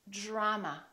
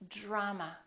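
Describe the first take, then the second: The two takes are said the same way.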